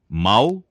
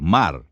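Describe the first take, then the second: First: The word ends in an L sound. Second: The word ends in an R sound. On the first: The speaker calls it wrong. "Rotacismo é a pronúncia defeituosa do R" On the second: The speaker calls it right. "por mar"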